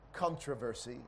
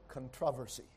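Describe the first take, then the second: First: It is pronounced the American way. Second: It is pronounced the British way. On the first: "we Americans say controversy" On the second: "I think some British people say controversy"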